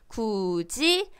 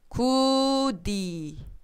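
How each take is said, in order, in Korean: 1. 두 번째 음절은 j 소리로 시작합니다. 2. 두 번째 음절은 d 소리로 시작합니다. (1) "라고 읽죠" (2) "이렇게 읽습니까? 아니죠"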